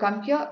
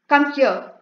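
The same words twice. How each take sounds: First: It is said in a polite, friendly way. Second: It is said as a harsh command.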